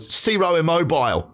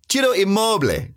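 First: The name is said with English pronunciation. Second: The name is said with Italian pronunciation.

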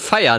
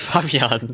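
First: The b sound in the middle is dropped. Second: The b sound in the middle is clearly pronounced. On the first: The speaker calls it wrong. "irgendwie verschluckst du immer das B" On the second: The speaker calls it right. "und nicht Fabian"

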